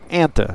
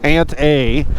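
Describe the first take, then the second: First: The name ends in a weak uh sound. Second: The name ends in the letter name A. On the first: It is one ordinary place name. The speaker calls it right. "It's Anta" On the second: It labels the first ant in a series. The speaker calls it wrong. "this is the very first ant we ever found, Ant A"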